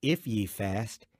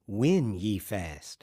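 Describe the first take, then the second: First: "If" stressed, slow and rising. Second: "When" stressed, very slow, falling. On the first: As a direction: lean on "If", slowly, with a rise. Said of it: "Jesus didn't say". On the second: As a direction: hit "When" hard and let it fall. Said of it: "He said". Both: Shown as a demonstration.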